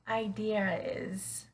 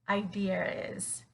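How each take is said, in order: First: An R sound links the two words. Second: The same.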